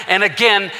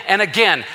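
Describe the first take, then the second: No difference in how they are said.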